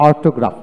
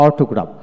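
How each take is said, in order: Both takes have the same delivery.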